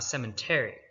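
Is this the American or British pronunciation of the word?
American. It is said with an American pronunciation. This is the newer form used in America.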